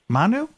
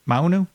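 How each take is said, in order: First: "Manu" said as mah-nu, plain ah, higher questioning rise; Manu without the U. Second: "Maunu" said as mau-nu, with an ow sound, questioning rise. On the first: Host tries the Finnish name again, "Manu" with ah. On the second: Host tries the guest's Finnish name, "Maunu" with ow. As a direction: try "Maunu" with the ow sound before the nu. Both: Shown as a demonstration. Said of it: "an extra U in there".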